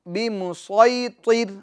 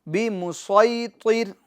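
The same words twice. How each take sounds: No difference in how they are said.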